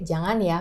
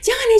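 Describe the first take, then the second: First: The voice sounds calm and steady. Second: The voice sounds hurried and panicked. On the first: The child is simply told it is dangerous. The speaker calls it right. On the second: The child is made anxious by the reaction. The speaker calls it wrong.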